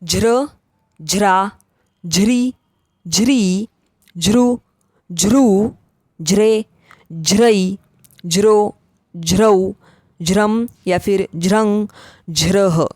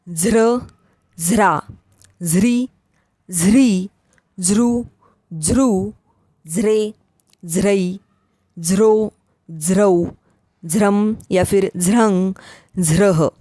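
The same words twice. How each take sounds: First: ज्र recited as aspirated "jhra", j plus h. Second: ज्र recited as aspirated "zhra", z plus h; z-like झ on each ज्र syllable. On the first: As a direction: say ज्र with a breathed j. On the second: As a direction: say ज्र with a breathed z. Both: Shown as a demonstration. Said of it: "झ का उच्चारण झ भी".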